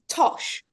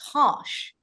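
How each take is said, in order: First: It is said in a non-American accent. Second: It is said in an American accent. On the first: "which to me is Tosh" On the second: "with an American accent, it's more like Tosh"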